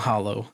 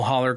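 First: The word ends with an 'oh' sound. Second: The word ends with an 'er' sound. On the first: The speaker calls it wrong. "It's not hollow" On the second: The speaker calls it right. "that's how you say it"

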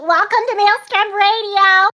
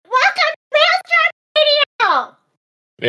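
First: It is said in Toadette's voice. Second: It is screamed angrily in Toad's voice.

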